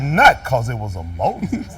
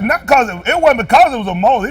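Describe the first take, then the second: First: Low, slow, weighty stress on "Not 'cause it was of Moses"; imitated emphasis. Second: Said in the usual way. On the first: Preacher imitating the scripture reader's emphasis, low and slow. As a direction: mimic an emphatic reader, dropping deep and drawing out "Not". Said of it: "with some emphasis". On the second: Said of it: "He read that with some emphasis".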